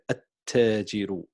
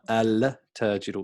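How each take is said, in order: First: The 'l' blends into a doubled 't' sound. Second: The word begins with a clear 'al' sound. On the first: The speaker calls it right. "We say at-tajiru" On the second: The speaker calls it wrong. "not al-tajiru"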